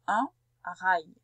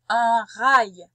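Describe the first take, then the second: First: Said in the usual way. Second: "Un rail" called out much louder; emphatic dictation. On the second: Shown as a demonstration. Teacher dictating "Un rail" to a pupil, loud. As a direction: announce "Un rail" loud and clear. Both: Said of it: "J'ai bien dit un".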